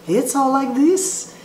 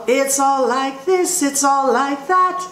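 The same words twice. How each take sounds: First: Lightly mock operatic tone; imitating a classical singer. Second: Light demo placed more in the mask; forward jazz tone. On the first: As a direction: sound like an opera singer doing jazz. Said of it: "a classical singer singing jazz". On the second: Shown as a demonstration. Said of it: "While you go".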